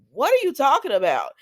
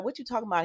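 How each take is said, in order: First: Loud, high-pitched incredulous question; shocked disbelief. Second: Said in the usual way. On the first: Retold or imitated. Retelling her reply to the leukemia news, loud shocked disbelief. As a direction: blurt it out, stunned, voice jumping up.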